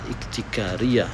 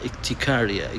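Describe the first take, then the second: First: The word is pronounced with an Arabic accent. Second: The word is pronounced with an English accent. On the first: "ในอาหรับก็จะพูดว่า" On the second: "สำเนียงของภาษาอังกฤษผมรู้สึกว่า"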